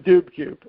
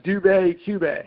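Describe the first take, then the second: First: The name ends with a plain 'boo' sound. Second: The name ends with a 'bay' sound. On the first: The speaker calls it wrong. "I just assume it's the Dube Cube" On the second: The speaker calls it right. "or is it the Dubay Cube?"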